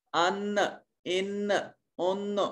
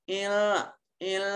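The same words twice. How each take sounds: First: "ان" with a clear, firm n, tongue tip at the front teeth; clear noon. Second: "ان" with the n blurred into a held nasal hum; hidden noon, ikhfa. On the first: Teacher demonstrating the original noon to students, clear n in "ان". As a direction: softly sound each "ان" separately with a fully articulated n. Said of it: "original والا نون ادا ہوگا۔ اب پڑھ کے دیکھیے".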